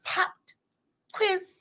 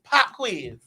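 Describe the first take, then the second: First: A clear t sound is heard after pop. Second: No t sound is heard after pop. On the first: The speaker calls it wrong. "She's like, popped quiz" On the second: The speaker calls it right. "It's just pop quiz"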